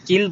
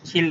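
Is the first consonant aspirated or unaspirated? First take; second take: unaspirated; aspirated. First: The first k is unaspirated. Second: The first k is aspirated. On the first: The speaker calls it wrong. "এটা কিল বলবো না" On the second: The speaker calls it right. "এটা কিল বলবা"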